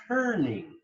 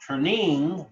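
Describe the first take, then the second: First: "turning" as TUR-ning, first syllable stressed; natural stress. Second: "turning" as tur-NING, second syllable stressed; wrong-syllable stress. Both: Shown as a demonstration. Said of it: "you emphasize the turning".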